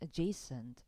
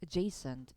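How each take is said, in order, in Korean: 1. 첫 모음은 약한 슈와 소리입니다. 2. 첫 모음은 약한 슈와 소리입니다.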